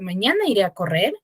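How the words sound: The voice rises at the end, like a question.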